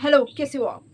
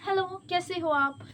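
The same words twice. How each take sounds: First: It is said awkwardly, without a sweet tone. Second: It is said in a sweet, loving tone.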